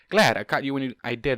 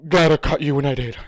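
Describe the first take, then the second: First: It is said in a normal speaking voice. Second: It is said in a big tough voice.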